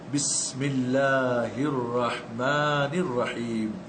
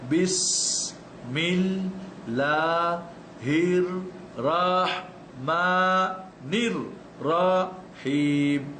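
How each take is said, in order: First: It is read as connected words without breaks. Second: It is read slowly, syllable by syllable, with breaks. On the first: "এরপর লাস্টে গিয়ে আপনি পড়বেন" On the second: "পড়বেন দশ বার ধরে ধরে একটা একটা করে অক্ষর।"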